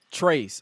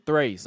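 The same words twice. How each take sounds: First: "trace" said as a botched Spanish tres; mock Spanish count. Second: "thrace" as three blended with tres; mock self-correction. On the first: Co-host imitating a wrestler counting in Spanish, mock "trace". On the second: Co-host imitating a wrestler fumbling three, mock "thrace". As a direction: say "thrace", trace with a th at the front. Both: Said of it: "I mean, thrace".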